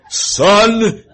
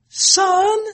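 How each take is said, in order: First: The word is said in a deep, powerful voice. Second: The word is said in a lighter, weaker voice. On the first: This is how the father calls the child. "Which is more powerful" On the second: This is how the mother calls the child. "The mother's voice is not that strong"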